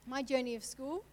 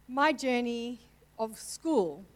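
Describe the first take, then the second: First: Said in the usual way. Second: Slow, louder words forced out through tears; choked up. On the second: Real, not acted. Telling the church about her school days, choking up. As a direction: push the words past a lump in the throat. Fighting tears mid sermon.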